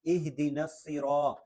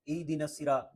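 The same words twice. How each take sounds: First: "اہدنا" with an audible breath of h; h from deep throat. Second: Quick "ایدنا" as eedina, no h; dropped h. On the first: Teacher models the correction, "اہدنا" with clear h. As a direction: sound the h in "اہدنا" from low in the throat. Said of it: "حلق کے سب سے نیچے والے حصے سے". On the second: Teacher shows the mistake, "ایدنا" without haa. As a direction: swallow the h, saying "ایدنا". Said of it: "یہ بھی نہیں ہے". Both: Shown as a demonstration.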